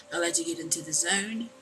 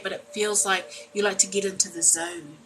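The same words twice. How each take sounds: First: Playful zoned-out croon on zone; vibing in the zone. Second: Said in the usual way. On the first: Pretend. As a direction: ease into it like you're lost in the music. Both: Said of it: "I don't know why I got like that".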